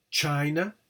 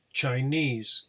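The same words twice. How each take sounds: First: CHINA stressed on CHI; stress on first syllable. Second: CHINESE stressed on NESE; stress on suffix. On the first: Teacher contrasting word with suffixed form, stress on CHI. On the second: Teacher showing stressed suffix, stress on NESE. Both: Shown as a demonstration. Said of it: "the suffix is stressed".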